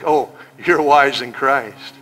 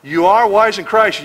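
First: Slow, drawn-out mock praise; sarcastic. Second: Said in the usual way. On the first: Shown as a demonstration. Preacher mocking the proud church, slow sarcasm. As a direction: say it like you don't mean it. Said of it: "he's being sarcastic". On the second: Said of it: "but then he's being sarcastic".

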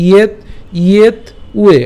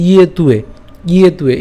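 First: "ইয়েত", pause, then "উয়ে"; higher-pitched "ইয়েত" held apart from "উয়ে"; split pronunciation. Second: "ইয়ে তুয়ে" with t linked onto উয়ে; joined pronunciation. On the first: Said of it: "এভাবে উচ্চারণ করবো". ("ইয়েত উয়ে" ভেঙে উচ্চারণ) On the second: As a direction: run "ইয়ে তুয়ে" together without a break. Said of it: "যখন একসাথে উচ্চারণ করবো". ("ইয়ে তুয়ে" জুড়ে উচ্চারণ) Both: Shown as a demonstration.

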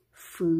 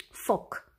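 First: F-O-C spelled out as separate letters F, O, C. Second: Said in the usual way. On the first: Shown as a demonstration. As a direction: spell F-O-C slowly, one letter at a time. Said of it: "Voi scrie chiar cu roșu". (literele F-O-C rostite pe rând)

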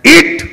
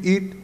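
First: "eat" shouted loud and high; forceful EAT. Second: Said in the usual way. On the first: Shown as a demonstration. Showing the boy's second order, "eat" forcefully shouted. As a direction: fire out "eat" as a hard command. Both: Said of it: "you know the difference between eat".

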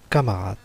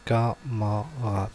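First: Said in the usual way. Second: Camarade slowly split as ca, ma, rade; syllable by syllable. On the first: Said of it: "on a quatre mots". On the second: Shown as a demonstration. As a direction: say camarade in three slow, separate syllables. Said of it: "première syllabe".

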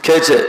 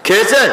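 First: খেয়েছে। dropped low with a final fall; firm answer. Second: খেয়েছে? asked with a rising tune; rhetorical question. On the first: Answers his own question. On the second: Asks then answers himself. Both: Acted.

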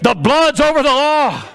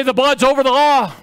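First: Higher, more forceful preaching cry; insistent call. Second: Higher preaching call; leading the crowd. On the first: Preacher pushing the congregation to say it properly, insistent call. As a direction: demand it back from the crowd. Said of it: "No, say it". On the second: Preacher asking the congregation to repeat it, emphatic call. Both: Shown as a demonstration.

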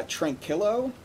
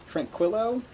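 First: Said in the usual way. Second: Tranquillo said higher as a questioning retry, with a kw sound: "tran-KWIL-oh"; Tranquillo, re-pronounced with a w after the k, unsure; second try at the name. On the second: Shown as a demonstration. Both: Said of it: "I think I was pretty close on one of those".

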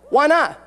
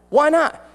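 The two takes are said the same way.

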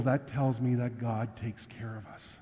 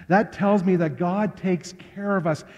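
First: Soft, low, sincere statement of faith; much softer, lower first take of the point; quiet conviction. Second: Higher, fuller proclamation of faith; emphatic repeat. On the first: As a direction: say it gently to yourself first. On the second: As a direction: repeat it out to the whole congregation. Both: Real, not acted.

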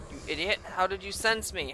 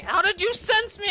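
First: Low, quiet muttered question; subdued incredulous question; low disbelief. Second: High, indignant question; pitched-up incredulous complaint; indignant disbelief. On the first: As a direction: ask it under your breath, put out. First take, muttered at enemy. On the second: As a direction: ask it outraged, voice shooting up. Repeat, outraged at enemy. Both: Real, not acted.

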